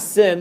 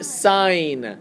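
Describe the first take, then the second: First: The vowel is short, rhyming with pin. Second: The vowel is long, rhyming with pine. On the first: The speaker calls it wrong. "sin is not sin" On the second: The speaker calls it right. "That's actually sine"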